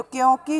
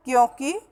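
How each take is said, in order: First: क्योंकि mispronounced with long "kee"; long final vowel. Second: क्योंकि with short final "ki"; short final vowel. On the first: Teacher quoting what people say, क्योंकि with long final "kee". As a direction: lengthen the last i of क्योंकि. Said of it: "बड़ी की मात्रा लगाते हैं". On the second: Teacher giving the correct form, क्योंकि ending in short "ki". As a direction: keep the last i of क्योंकि short. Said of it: "शुद्ध रूप है". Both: Shown as a demonstration.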